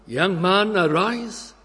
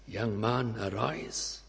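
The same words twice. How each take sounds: First: Higher, louder summons to rise; fervent call. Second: Hushed command. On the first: Preacher summoning the young man, raised and fervent. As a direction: call them up with full force. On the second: Christ touches the coffin. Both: Acted.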